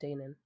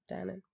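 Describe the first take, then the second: First: "Danan" murmured very softly as DAY-nun; long-A pronunciation. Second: "Danan" murmured very softly as DAN-un; short-A pronunciation. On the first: Host testing author's surname to herself, quiet "Danan" as DAY-nun. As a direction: try "Danan" under your breath, long A like Dane. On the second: Host testing author's surname to herself, quiet "Danan" as DAN-un. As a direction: try "Danan" under your breath, short A like Dan. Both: Shown as a demonstration. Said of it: "if it's Danan or Danan".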